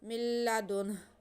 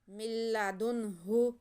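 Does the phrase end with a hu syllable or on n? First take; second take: n; hu syllable. First: The phrase ends on n with a silent h. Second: The phrase ends with a final hu syllable. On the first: The reader stops at the end of the phrase. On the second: The reading continues without a stop.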